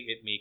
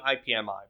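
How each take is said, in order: First: It is said as one two-syllable word. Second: It is spelled out as four separate letters. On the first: "I say it me because it's a lot faster" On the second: "I mean IPMI"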